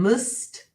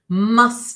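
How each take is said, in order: First: The vowel is reduced to a weak schwa. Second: The vowel is a full, clear u sound. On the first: "weak form" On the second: "full form"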